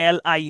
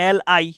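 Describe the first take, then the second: No difference in how they are said.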